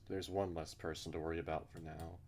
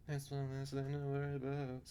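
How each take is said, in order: First: Said in the usual way. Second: High, put-on voice; high character voice. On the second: Character relieved at one less worry, in a high put-on voice. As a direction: redo it lifted well above your own pitch.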